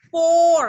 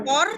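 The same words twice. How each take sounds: First: "Four" held long and louder. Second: "Four" with a short, unstretched O; ordinary short O. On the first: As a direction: draw out the O of "Four". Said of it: "itu adalah O panjang". ("Four" dengan O panjang) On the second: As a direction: cut the vowel of "Four" short. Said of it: "itu O biasa". ("Four" dengan O biasa, pendek) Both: Shown as a demonstration.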